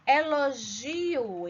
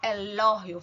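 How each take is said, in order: First: The stress does not fall on lo. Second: The stress falls on the syllable lo. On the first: This is the Portuguese pronunciation. "em português" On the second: This is the Spanish pronunciation. "Força no lo"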